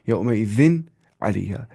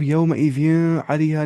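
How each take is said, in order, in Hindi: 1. n की आवाज़ साफ़ बोली जाती है। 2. n की आवाज़ नाक में छिपी हुई है। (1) "सीधी एन की आवाज़, नून की आवाज़" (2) "नहीं पढ़ना है"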